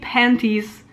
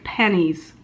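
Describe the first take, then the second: First: The T in the middle is clearly pronounced. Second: The T in the middle is dropped entirely. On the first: The speaker calls it right. "I will never say panties" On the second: The speaker calls it wrong. "like pennies because it sounds way too much like penis"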